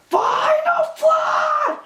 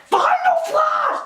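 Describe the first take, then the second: First: High, drawn-out battle shout; charged attack cry. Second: High, quicker battle shout; uncharged attack cry. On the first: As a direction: stretch it out like a fully charged finishing move. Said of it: "That's the charged Final Flash". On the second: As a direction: fire the move off with no build-up. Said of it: "This is an uncharged Final Flash". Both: Retold or imitated.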